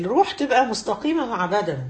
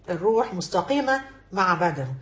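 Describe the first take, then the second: First: Said in the usual way. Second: مستقيمة drawn out slowly, lower pitch, falling at the end; slow emphatic repeat. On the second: Shown as a demonstration. Teacher repeating the point to her students, slow and lower with stress on مستقيمة.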